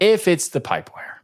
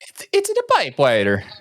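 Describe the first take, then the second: First: It is said in his normal voice. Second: It is said in a Mario impression voice.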